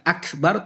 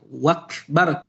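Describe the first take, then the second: First: The word begins with a glottal stop. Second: The word begins with a w sound. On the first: The speaker calls it right. "bukan akbar" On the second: The speaker calls it wrong. "dia ganti menjadi huruf waw"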